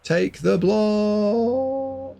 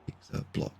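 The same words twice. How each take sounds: First: High, hugely stretched wail; drawn-out plea. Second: Barely voiced, very soft aside; hushed plea. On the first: Commentator begging the player to block, drawn-out plea. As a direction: plead it high, holding the last word very long. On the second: Commentator repeating his plea to the player, hushed. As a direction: say it under your breath, almost whispered. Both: Real, not acted.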